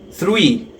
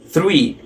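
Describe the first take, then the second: First: The word starts with a th sound. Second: The same.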